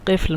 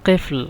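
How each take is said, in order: First: The word begins with a deep q sound. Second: The same.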